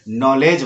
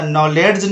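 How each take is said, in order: First: नॉलेज as "nollej", no D; silent D. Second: नॉलेज wrongly said as "nolled-j"; D sounded. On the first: Teacher giving the right reading, D silent in नॉलेज. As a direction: go straight to the J in नॉलेज. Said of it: "नॉलेज बोलना है". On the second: Teacher warning students, wrong D sounded in नॉलेज. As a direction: put an audible D before the J in नॉलेज. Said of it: "नॉलेज नहीं बोलना है आपको". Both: Shown as a demonstration.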